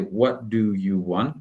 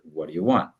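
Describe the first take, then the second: First: Each word is said fully and separately. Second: The words are reduced and run together. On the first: The speaker calls it wrong. "we don't say" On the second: The speaker calls it right. "but rather"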